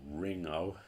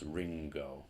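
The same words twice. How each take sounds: First: [name] as "RING-oh"; [name] with the hard g dropped; mispronounced without g. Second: [name] as "RING-go"; [name] with ng and a hard g; pronounced with g. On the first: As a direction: say [name] with only ng, no g. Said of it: "This isn't pronounced [name]". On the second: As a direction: say [name], releasing the g after ng. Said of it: "this is pronounced [name]". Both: Shown as a demonstration.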